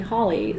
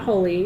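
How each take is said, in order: First: The first vowel sounds like the vowel in doll. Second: The first vowel sounds like the vowel in holy. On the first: The speaker calls it right. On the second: The speaker calls it wrong. "no, not Holy"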